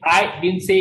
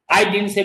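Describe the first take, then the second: First: The word I is stressed. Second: The word didn't is stressed. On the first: Someone else said it. "means I have not said it, somebody else must have said it" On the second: It was never said at all. "means you want to say कि I have not said it at all"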